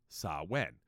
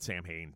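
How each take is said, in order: First: It is said differently from its spelling. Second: It is said the way it is spelled.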